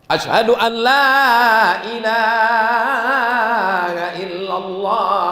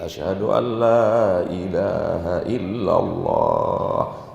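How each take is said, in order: First: It is said loudly and forcefully. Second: It is said softly and gently.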